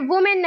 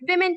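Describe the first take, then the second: First: The first vowel sounds like 'oo' in 'book'. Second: The first vowel sounds like 'i' in 'win'. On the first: The speaker calls it wrong. "वुमेन नहीं" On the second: The speaker calls it right. "बल्कि विमेन कहेंगे"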